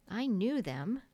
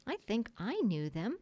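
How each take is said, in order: First: Put-on mildly smug child's claim; teasing boast. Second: Put-on hesitant, wavering child's claim; doubtful. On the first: John annoying the others during the story, smug. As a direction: show off lightly to needle the others. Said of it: "John said to annoy the others". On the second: Michael following his brother's claim, doubtful. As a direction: sound rather unsure of it. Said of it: "rather doubtfully". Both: A narrator's reading.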